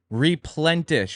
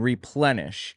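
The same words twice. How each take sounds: First: A t sound is added after the n. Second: No t sound follows the n. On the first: The speaker calls it wrong. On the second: The speaker calls it right.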